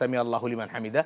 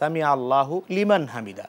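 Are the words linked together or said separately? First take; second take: linked; separate. First: The words run together in one linked flow. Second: The words are said separately, one by one. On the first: This is how the words are read together. "একসাথে যখন পড়ছি" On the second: This is how the words stand when written. "আমরা যখন লিখছি"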